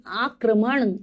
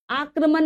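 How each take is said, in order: First: "आक्रमण" ending in curled-tongue N; correct pronunciation. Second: "आक्रमण" ending in a plain dental N; mispronounced word. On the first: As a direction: say aa-kra-maṇ for "आक्रमण", retroflex N. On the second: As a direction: say "आक्रमण" wrongly as aakraman. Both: Shown as a demonstration. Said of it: "आक्रमण नहीं".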